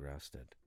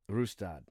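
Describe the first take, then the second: First: The name is mumbled and unclear. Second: The name is said clearly and carefully. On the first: The speaker calls it wrong. "I kind of mumbled it" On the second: The speaker calls it right. "Let me say it right"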